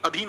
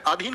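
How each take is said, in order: First: अधीन said as "adheen"; correct short first vowel. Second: अधीन mispronounced as "aadheen"; wrong long first vowel. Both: Shown as a demonstration. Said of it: "जी नहीं, अधीन होता है।".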